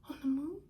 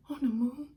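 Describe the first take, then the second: First: "moon" rising higher into a question; questioning echo. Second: "moon" said loud and a little raised, as an answer; playful answer. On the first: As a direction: echo it like a child, lifting "moon". Child echoes the answer, questioning. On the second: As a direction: tell the child "moon" loudly, matter-of-fact. Father answers child playfully. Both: Acted.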